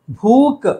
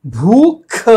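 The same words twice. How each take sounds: First: भूख said as "bhook", no final puff; wrong final k. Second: भूख with forceful puffs on भ and ख; raised, emphatic भूख with breathy final kh; both sounds aspirated. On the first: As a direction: end भूख on a plain क. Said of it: "भूख नहीं है". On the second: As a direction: punch out "bhoo-kh" in भूख. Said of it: "दोनों भलाघात वाले हैं". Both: Shown as a demonstration.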